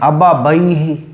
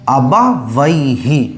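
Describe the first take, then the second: First: Both words are said with a b sound. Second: The second word starts with a w sound. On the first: The speaker calls it wrong. "यानी दोनों जगह बा।" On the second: The speaker calls it right. "पहला है बा, दूसरा है वाव"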